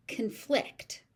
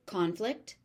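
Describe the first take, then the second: First: "conflict" with the stress on FLICT; "conflict" as a verb, con-FLICT. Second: "conflict" with the stress on CON; "conflict" as a noun, CON-flict, left hanging. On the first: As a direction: reduce the first syllable of "conflict" and hit the second. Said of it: "being used as a verb". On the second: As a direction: hit the first syllable of "conflict", full "ah" vowel. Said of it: "the stress moves depending". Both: Shown as a demonstration.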